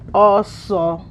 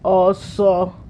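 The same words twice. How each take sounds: First: The tones go high then mid. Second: The tones stay high then high. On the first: "High mid" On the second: "High high"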